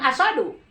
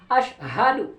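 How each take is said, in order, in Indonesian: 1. Di tengahnya hanya bunyi 's' biasa. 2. Di tengahnya ada 'sh' lalu 'h'. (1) "Bukan asadu" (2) "Harusnya kan ash, ha"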